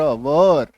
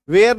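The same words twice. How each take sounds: First: वर said as one short syllable, "var", no glide; वर spoken crisp and short, the right way; correct pronunciation. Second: वेयर voiced as the error students make; wrong pronunciation. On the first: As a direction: say वर like वर in वर वधु. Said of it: "इसका उच्चारण होता है वर". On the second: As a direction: show the wrong वेयर, like in warehouse. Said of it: "वेयर नहीं बोलेंगे". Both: Shown as a demonstration.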